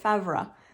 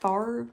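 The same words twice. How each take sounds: First: The name is said with a French pronunciation. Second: The name is said with an American pronunciation. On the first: The speaker calls it right. "It's like the French pronunciation" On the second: The speaker calls it wrong. "it's like Brett Favre, but they don't say it like Brett Favre"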